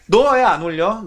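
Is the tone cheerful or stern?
stern. It is asked stiffly, with suspicion.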